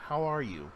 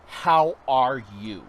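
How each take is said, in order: First: Sincere. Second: Loud, slow, drawn-out how are you; "How" stretched slow and loud as a big friendly hello; bright greeting. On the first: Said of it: "No, seriously". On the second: Asking a stranger "How" loud and slow, friendly. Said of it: "I'm like, "No". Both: Retold or imitated.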